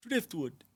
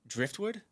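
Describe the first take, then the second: First: Badly faked Italian accent, higher pitch; a joke attempt at an Italian accent; mock Italian accent. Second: Said in the usual way. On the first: Shown as a demonstration. Streamer jokingly translating driftwood for chat, badly faked Italian accent. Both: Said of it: "That's my Italian accent".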